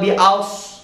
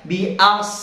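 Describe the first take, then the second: First: The vowel is said with rounded, pushed-forward lips. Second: The vowel is said with unrounded lips. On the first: The speaker calls it wrong. "Atau bi aus, nggak boleh ya" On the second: The speaker calls it right. "kepala lidahnya diturunkan ke gigi seri bawah dan ucapkan bi as"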